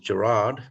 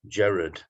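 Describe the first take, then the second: First: It is said the American way. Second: It is said the Northwest English way.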